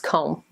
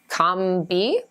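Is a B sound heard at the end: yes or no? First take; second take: no; yes. First: No B sound is heard at the end. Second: A B sound is heard at the end. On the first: The speaker calls it right. "A long O, and the B is silent" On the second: The speaker calls it wrong. "It looks like comb-bee?"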